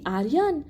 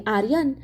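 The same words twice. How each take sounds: First: Frozen with shock, calling the name Aryan with a rising cry. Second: Relieved. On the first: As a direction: call Aryan out in sudden dread. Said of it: "नम्रता थिजली". (धक्का बसून आर्यनला हाक) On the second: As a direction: breathe out Aryan, relieved. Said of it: "नम्रता सुटकेने म्हणाली". (सुटकेने आर्यन म्हणणे) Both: A narrator's reading.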